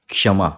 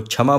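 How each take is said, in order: First: क्षमा said ksha-ma, k blended into sh; the right way: क्षमा, k then sh; correct reading. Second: क्षमा said chha-ma, with a ch sound; the mistaken chhama for क्षमा; common wrong reading. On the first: Teacher gives students the correct reading, क्षमा as k plus sh. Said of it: "इसका सही उच्चारण है". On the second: Teacher imitates how many people say क्षमा, as chhama. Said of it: "बहुत लोग इसको क्षमा बोलते हैं". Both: Shown as a demonstration.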